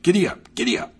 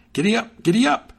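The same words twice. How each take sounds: First: Mock shout. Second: Giddy up yelled high and loud, rising; shouted. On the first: Horseman showing Hans how to urge on a horse, mock shout. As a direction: call it out like urging a horse on. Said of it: "click your tongue and shout". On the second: A narrator's reading. Hans spurring his new horse to go faster, rising shout. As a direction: urge the horse faster with a bright yell. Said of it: "he clicked his tongue and shouted".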